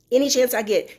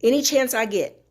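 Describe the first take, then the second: No difference in how they are said.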